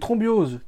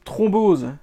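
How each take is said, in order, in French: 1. Un son 'ee' supplémentaire suit 'throm'. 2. Aucun son de voyelle supplémentaire ne suit 'throm'. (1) "Ah, des thrombioses" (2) "ça se dit thrombose"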